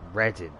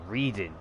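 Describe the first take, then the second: First: The first vowel is short, as in 'red'. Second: The first vowel is long, as in 'read'. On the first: The speaker calls it right. "but you pronounce it as Reading" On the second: The speaker calls it wrong. "It looks like reading"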